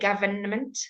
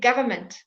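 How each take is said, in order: First: The first n sound is pronounced. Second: The first n sound is left out. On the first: The speaker calls it wrong. "we never say government" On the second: The speaker calls it right. "we say government"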